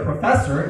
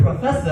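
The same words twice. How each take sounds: First: It is said in an American accent. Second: It is said in a British accent.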